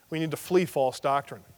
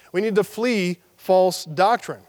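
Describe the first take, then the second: First: Said in the usual way. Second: Slow, each word of "We need to flee false doctrine" weighted; slow emphatic repeat. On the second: Shown as a demonstration. Preacher repeating his point to the congregation, slow and emphatic. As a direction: hammer "flee false doctrine" slowly home.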